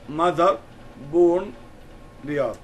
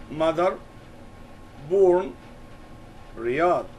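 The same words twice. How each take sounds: First: Mother and born punched loud, Riyadh falling; teacher repeating stressed words loudly; stressed key words. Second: Each of Mother, born, Riyadh said as its own punched word; stressed key words. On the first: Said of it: "We stress these words". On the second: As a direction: hit Mother, born and Riyadh, one at a time. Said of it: "Here we emphasized three words". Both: Shown as a demonstration.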